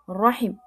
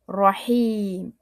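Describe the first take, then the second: First: The vowel is cut short and clipped. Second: The vowel is drawn out long.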